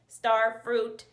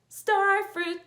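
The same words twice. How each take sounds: First: It is said in a robot voice. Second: It is said in a normal voice.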